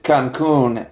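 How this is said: The name is pronounced in a Spanish way. "Why is it Cancun"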